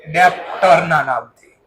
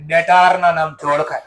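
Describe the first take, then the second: First: ડેપ્ટરના said with a p sound, as deptar-na; ડેપ્ટરના spoken slowly as dep-tar-na, the mistaken form; slip of the tongue. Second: ડેટારના said as de-taar-na, no p sound, with a small laugh; corrected word. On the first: Teacher naming the debtor to students, slowly mispronounced ડેપ્ટરના. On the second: Teacher correcting her slip for students, ડેટારના with a laugh. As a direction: fix it to ડેટારના with a long taar and a chuckle. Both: Real, not acted. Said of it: "sorry, mistake થઈ".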